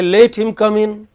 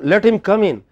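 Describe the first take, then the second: First: The first word has a long 'ay' vowel. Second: The first word has a short 'e' vowel. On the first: The speaker calls it wrong. "Some people pronounce let as late" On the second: The speaker calls it right. "They don't say let"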